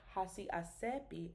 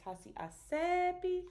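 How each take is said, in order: First: The E stays level in pitch. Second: The E rises in pitch. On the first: The speaker calls it wrong. "it's not hasi asepi" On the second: The speaker calls it right. "The E goes up"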